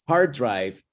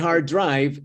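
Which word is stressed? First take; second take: hard; drive. First: The word hard is stressed and higher. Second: The word drive is stressed and longer. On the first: A computer storage disk. "es un disco duro de computador" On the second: A difficult road trip. "es una ruta muy dura de manejar"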